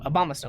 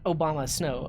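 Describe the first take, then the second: First: The name begins like the word abominable. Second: The name begins like the word Obama. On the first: The speaker calls it right. "like an abominable snowman" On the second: The speaker calls it wrong. "Not Obama Snow"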